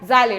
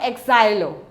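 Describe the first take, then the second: First: The word starts directly without an added vowel. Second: The word starts with an added vowel sound. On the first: The speaker calls it right. "you pronounce it as xylo" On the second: The speaker calls it wrong. "not exilo"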